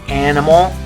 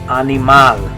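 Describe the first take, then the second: First: It is said with English vowel sounds. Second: It is said with Spanish vowel sounds. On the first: "in English, we say" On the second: "In Spanish, you're going to say"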